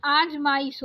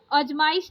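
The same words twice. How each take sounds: First: आजमाइश with a long opening aa; correct long first vowel. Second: अजमाइश with a short first a; wrong short first vowel. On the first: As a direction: say आजमाइश as "aaj-maa-ish". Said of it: "आजमाइश होता है". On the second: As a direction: say अजमाइश as "uj-maa-ish". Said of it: "अजमाइश नहीं". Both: Shown as a demonstration.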